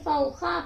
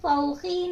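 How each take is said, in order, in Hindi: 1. शब्द का अंतिम स्वर a है। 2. शब्द का अंतिम स्वर i है। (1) "बल्कि फौखा पढ़ेंगे" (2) "नहीं पढ़ेंगे"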